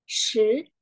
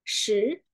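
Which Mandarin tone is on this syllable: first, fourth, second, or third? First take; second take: second; second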